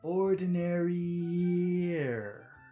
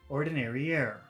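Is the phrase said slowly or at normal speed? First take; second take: slowly; normal speed. First: It is said slowly with each sound drawn out. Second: It is said at normal speed with short sounds.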